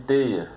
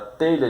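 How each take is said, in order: First: The lh is said as a regional i sound. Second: It is said with the standard lh sound.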